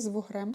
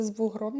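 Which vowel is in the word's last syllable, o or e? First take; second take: e; o. First: The last syllable has an e vowel. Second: The last syllable has an o vowel. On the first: The speaker calls it wrong. "не з вугрем" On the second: The speaker calls it right. "Правильно казати, з вугром"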